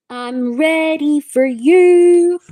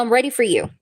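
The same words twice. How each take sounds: First: Higher, louder, slow stretched-out line; drawn-out sing-song. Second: Said in the usual way. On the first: Pretend. Reader teasing viewer she is ready, slow sing-song. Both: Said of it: "teasing repeat to viewer".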